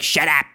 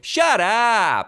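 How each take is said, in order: First: It sounds angry and dismissive, telling someone off. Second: It sounds amazed and disbelieving, not hostile.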